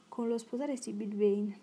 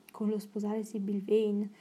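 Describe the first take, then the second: First: Said in the usual way. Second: Slowed, stunned echo of the question; astonished cry. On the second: A narrator's reading. Lord Henry echoing Dorian's marriage plan in astonishment. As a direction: repeat it in disbelief, drawn out. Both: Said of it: "gridò Lord Henry".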